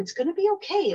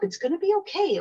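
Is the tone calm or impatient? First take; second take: impatient; impatient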